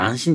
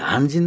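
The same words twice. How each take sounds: First: The word is pronounced anshin. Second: The word is pronounced anjin. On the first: This is the everyday reading of the word. The speaker calls it wrong. "仏教の世界じゃ安心じゃねえ" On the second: This is the Buddhist reading of the word. The speaker calls it right. "安心なんだよね"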